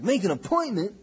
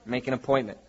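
First: Higher-pitched, put-on disbelieving question; mimicked indignant query, voice jumping up; mock incredulous echo. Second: Low-key, offhand dismissal; matter-of-fact pastor fobbing someone off; casual brush-off. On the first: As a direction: imitate someone balking at the very idea. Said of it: "It's like". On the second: Retold or imitated. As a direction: say it as a routine brush-off. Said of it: "And I go".

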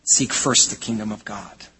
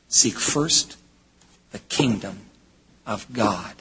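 First: Said in the usual way. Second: "Seek first", pause, "the kingdom", pause, "of God", dropping low; phrase-by-phrase emphasis. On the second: Shown as a demonstration. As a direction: break after "first" and after "kingdom", letting each part land. Repeats verse slowly in separated phrases.

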